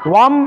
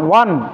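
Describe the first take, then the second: First: It ends in an m sound. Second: It ends in a clear n sound. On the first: The speaker calls it wrong. "ওয়াম এটাও হবে না" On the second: The speaker calls it right. "ওয়ান স্পষ্টটাই হবে"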